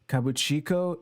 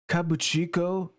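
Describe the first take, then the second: First: The pitch stays in the normal register. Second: The pitch is raised high. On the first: The speaker calls it right. "Let me try" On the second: The speaker calls it wrong. "I was raising my voice there"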